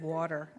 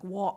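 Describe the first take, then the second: First: The middle t is clearly pronounced. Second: The middle t is dropped, North London style. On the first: "instead of" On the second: "Just imagine a North London voice, so it's like"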